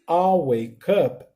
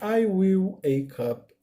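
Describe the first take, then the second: First: The words 'I will' are contracted to 'I'll'. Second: The words 'I will' are said in full.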